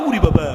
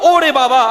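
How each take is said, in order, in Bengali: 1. প্রথম স্বরধ্বনিটি 'u' এর মতো শোনায়। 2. প্রথম স্বরধ্বনিটি 'o' এর মতো শোনায়। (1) "আমরা উরি বাবা। উ উ না" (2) "এটা হবে কি ও"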